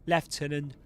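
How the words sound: It is said with a British English pronunciation. "British English"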